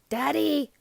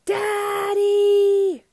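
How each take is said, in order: First: It is said a little louder. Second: It is yelled as loud as possible.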